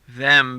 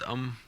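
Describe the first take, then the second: First: The word is said in full. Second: The word is reduced to a weak um.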